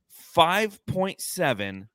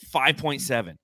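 First: "Five point seven" drawn out very slowly, word by word; slow emphatic repeat. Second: Said in the usual way. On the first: Real, not acted. Host repeating a damning assist stat, "Five point seven" slow and emphatic. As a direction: stretch out "Five point seven" to let it sink in.

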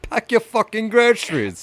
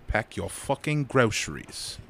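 First: High-pitched British parody; exaggerated British mimicry; high mock British. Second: Put-on slow British-accented catchphrase; measured mock British scolding. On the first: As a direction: squeal the catchphrase in a British accent. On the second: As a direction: quote the shopper, drawing it out in British. Host echoes the British catchphrase.

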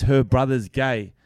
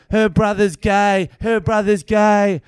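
First: Slow, measured mock accusation; mock accusing. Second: High, loud, drawn-out mock yelling; insistent repeated shout. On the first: Woman brings up her friend's brother, mildly mock accusing. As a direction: imitate a pointed complaint, drawn out. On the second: Woman films comedian, repeating accusation in mock shout. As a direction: imitate someone hammering one accusation over and over. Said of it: "She just keeps going".

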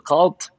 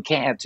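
First: "cult" said as British CAN'T with a broad ah; long open ah in "cult". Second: "cant" with a flat American a; short front a in "cant"; American CAN'T. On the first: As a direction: say "cult" as an English "cahnt". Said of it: "what happened to the cult". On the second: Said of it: "How did that become cant". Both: Shown as a demonstration.

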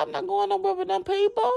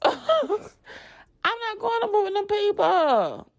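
First: Said in the usual way. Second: Laughing. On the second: Retold or imitated. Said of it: "repeat slower laughing".

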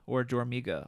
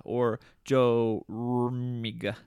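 First: Said in the usual way. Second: "Jormiga" stretched out very slowly, each syllable sounded; slow careful pronunciation. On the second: Shown as a demonstration. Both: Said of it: "I can't really pronounce this one".

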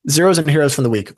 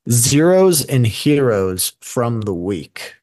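First: Higher, louder, quick title read; upbeat announcement. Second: Slow, drawn-out segment title; announcer voice. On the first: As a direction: toss it off with energy. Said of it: "repeating the segment title brightly". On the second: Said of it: "announcing the new segment title". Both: Shown as a demonstration.

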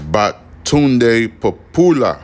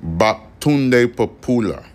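First: Slow, careful syllable-by-syllable Batunde Popoola; name spelled out slowly. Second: Slow Batunde Popoola, stress shifted onto Batunde; name repeated slowly. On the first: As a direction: stretch out Batunde Popoola, stressing Popoola. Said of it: "His name is". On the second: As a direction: say Batunde Popoola again, hitting Batunde. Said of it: "That's his name". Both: Shown as a demonstration.

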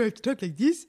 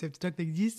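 First: Said in the usual way. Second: Put-on voice for talking to a puppy. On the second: Shown as a demonstration. Describing how she talks to the new puppy, puppy-talk voice. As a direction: coo it like you're talking to a puppy.

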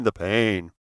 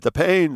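First: Melodramatic moan. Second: High, loud wail on "the pain"; "the pain" flung out high and loud; melodramatic wail. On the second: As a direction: cry "the pain" up high like a tragic heroine. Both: Retold or imitated. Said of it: "Very melodramatic".

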